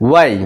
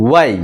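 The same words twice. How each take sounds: Both takes have the same delivery.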